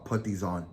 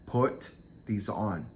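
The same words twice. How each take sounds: First: Said in the usual way. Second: Each word drawn out and spaced; measured, unhurried retold command; slow, deliberate order. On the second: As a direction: repeat the command slowly and deliberately. Captor repeats his order slowly.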